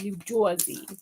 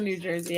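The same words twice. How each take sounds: First: New Jersey said as "Joizy"; hammed-up New Jersey accent on the name; stereotypical New Jersey accent. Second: Said in the usual way. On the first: Shown as a demonstration. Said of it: "very stereotypical New Jersey accent". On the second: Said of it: "New Jersey accent".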